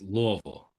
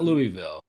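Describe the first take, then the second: First: The first syllable sounds like the word love. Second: The first syllable does not sound like love. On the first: The speaker calls it right. "It's Louisville, Love like basically Louisville" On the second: The speaker calls it wrong. "not Louisville"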